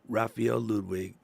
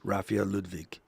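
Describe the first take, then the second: First: The name is said with an English accent. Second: The name is said with a German accent.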